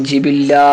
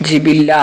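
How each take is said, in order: Both takes have the same delivery.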